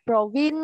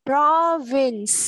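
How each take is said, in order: First: "provin" with the final s dropped; wrong final sound. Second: "Province" drawn out with its closing s; full final sound. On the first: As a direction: end "provin" on a bare n, no s. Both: Shown as a demonstration. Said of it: "Không có đọc provin nha".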